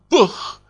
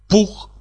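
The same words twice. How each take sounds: First: The word is said with a marked accent. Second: The word is said plainly, without accent. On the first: The accent gives away the speaker's origin. The speaker calls it wrong. "и он скажет вам" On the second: Nothing gives away the speaker's origin. The speaker calls it right. "А я выговариваю правильно"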